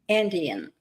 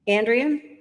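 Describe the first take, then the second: First: The word has no R sound after the D. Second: The word contains an R sound after the D. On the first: The speaker calls it right. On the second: The speaker calls it wrong.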